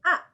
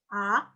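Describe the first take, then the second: First: The pitch drops sharply and forcefully. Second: The pitch rises without dipping first. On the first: "langsung dihentak aja" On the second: "naik tapi dia nggak turun, nggak berkelok"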